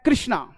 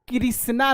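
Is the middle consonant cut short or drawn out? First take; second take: cut short; drawn out. First: The middle consonant is cut short and quick. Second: The middle consonant is drawn out with a vowel. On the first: The speaker calls it right. "आप ये भी आधा लिख रहे हो ... तो ये है कृष्णा" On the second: The speaker calls it wrong. "कृष्णा नहीं होता है"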